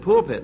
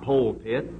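First: The first syllable sounds like 'pull'. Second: The first syllable sounds like 'pole'. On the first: The speaker calls it right. "your congregation would appreciate you more if you said pulpit" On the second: The speaker calls it wrong. "and not pole pit"

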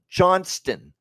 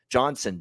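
First: The name is said with a T sound. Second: The name is said without a T sound. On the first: The speaker calls it right. "There's a T in that last name" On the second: The speaker calls it wrong. "Wyatt Johnson, Johnson, Johnson"

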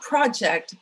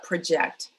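First: The stress is on the first syllable. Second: The stress is on the second syllable. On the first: It names a piece of planned work. The speaker calls it wrong. "not project" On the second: It means to picture a future state. The speaker calls it right. "but project. Visualize"

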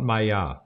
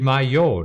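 First: The word ends with an 'a' vowel sound. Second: The word ends with an 'o' vowel sound. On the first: The speaker calls it wrong. "not Maya" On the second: The speaker calls it right. "De Mayo"

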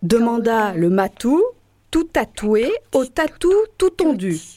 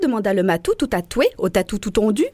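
First: It is said slowly. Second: It is said fast.

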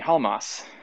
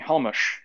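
First: The name is said with an English pronunciation. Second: The name is said with a Hungarian pronunciation. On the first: This is the pronunciation its bearer prefers. The speaker calls it right. "Call me Halmas" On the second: This is the name's original pronunciation. The speaker calls it wrong. "don't call me Halmush"

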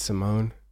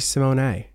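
First: The final E is silent. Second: The final E is pronounced as a syllable. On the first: "if it's Simone" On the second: "It should be Simone"

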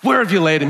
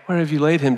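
First: It is said with fiery indignation. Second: It is said calmly, without indignation.

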